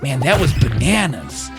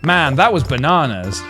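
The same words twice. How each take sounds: First: It is said in an American accent. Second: It is said in a British accent. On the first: The speaker calls it right. "see, that sounds great" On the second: The speaker calls it wrong. "It doesn't sound right coming out of my voice"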